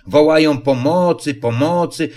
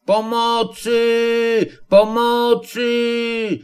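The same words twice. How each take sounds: First: Said in the usual way. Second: Wysokie, przeciągnięte, bardzo powolne wołanie o pomoc; rozciągnij każde pomocy wysoko i wolno; wołanie z drzewa. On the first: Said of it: "rzekł Puchatek, mocno zaciekawiony". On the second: Acted. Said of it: "jagular zawołał do nich z góry". (wysoko i bardzo wolno, przeciągle: Pomocy! Pomocy!)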